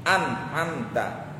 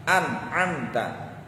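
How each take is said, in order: The two takes are said the same way.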